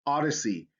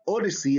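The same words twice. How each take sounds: First: "Odyssey" with an open AH, AH-duh-see; correct vowel demo. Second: "Odyssey" with a long O, OH-di-see; wrong vowel demo. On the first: Teacher corrects the word Odyssey, open AH vowel. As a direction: start "Odyssey" with "ah". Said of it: "it's ah". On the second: Teacher shows how not to say Odyssey, long O. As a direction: start "Odyssey" with "oh". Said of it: "It's not Odyssey". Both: Shown as a demonstration.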